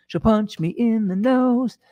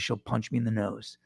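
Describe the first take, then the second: First: High, drawn-out comic repeat; playful put-on voice, pitched up and slow; mock warning. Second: Said in the usual way. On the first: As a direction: stretch it out slowly in a silly high voice.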